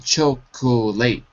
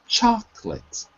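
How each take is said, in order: First: The word is said with three full syllables. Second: The word is said with only two syllables. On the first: The speaker calls it wrong. "So we don't say chocolate" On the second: The speaker calls it right. "take out the O"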